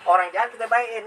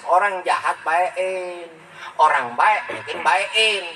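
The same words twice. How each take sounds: First: Said in the usual way. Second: Each word drawn out slowly, spelling out the lesson; slow emphatic maxim. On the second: Shown as a demonstration. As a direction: say the rule very slowly so it sinks in. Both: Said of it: "Itu kan mesos".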